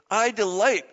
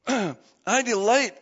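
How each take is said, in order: First: Said in the usual way. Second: I delight said very slowly, leaning on delight; stressed, slow. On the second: Shown as a demonstration. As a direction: savour each word of I delight.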